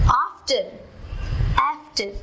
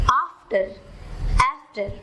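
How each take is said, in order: The two takes are said the same way.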